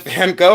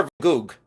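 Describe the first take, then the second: First: Gogh said as "go", open ending; usual American pronunciation. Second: Gogh said as "goog", closing on g; other people's pronunciation. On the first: Shown as a demonstration. Seller repeating her question, Gogh as "go". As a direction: rhyme Gogh with "go". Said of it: "I've always heard Van Gogh". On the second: Retold or imitated. Seller repeating others' version, Gogh as "goog". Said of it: "They say Van Gogh".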